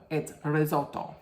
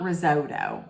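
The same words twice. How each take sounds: First: "risotto" with short o, ri-ZOLT-to; Italian risotto. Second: "risotto" with a long oh, ri-ZOH-doh; the mistaken "risotto", long middle oh; Americanized risotto. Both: Shown as a demonstration. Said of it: "It's not risotto".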